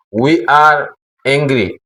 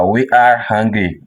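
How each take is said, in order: First: "angry" with no h, opening on an open e; mistaken pronunciation. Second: "hungry" opening on an audible h; correct pronunciation. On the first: Teacher showing beginners the error to avoid, slow "angry" without h. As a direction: slowly say "angry", starting straight on the vowel. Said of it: "l'erreur à ne pas dire". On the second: Teacher modelling the phrase for beginners, "hungry" begun with h. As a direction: say "hungry" with a breathed h at the front. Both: Shown as a demonstration.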